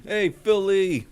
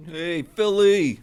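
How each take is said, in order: First: Higher, slow stretched fan call; Philly greeting. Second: High, drawn-out Philly fan call; Philly greeting. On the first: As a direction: call it out again, even higher. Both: Pretend.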